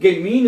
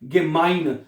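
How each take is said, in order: First: The second vowel sounds like 'ee'. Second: The second vowel sounds like 'eye'. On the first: The speaker calls it wrong. "हमने इसको गेमीन नहीं पढ़ा" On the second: The speaker calls it right. "ई आई इकट्ठा आया है तो हमने इसको आई पढ़ा है"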